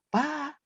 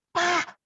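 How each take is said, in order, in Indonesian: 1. Kata itu dipanggil dengan nada yang lembut dan halus. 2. Kata itu dipanggil dengan nada yang tajam, seperti berseru. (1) "tadinya nada lembut tuh" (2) "ini supaya pakai tanda seru"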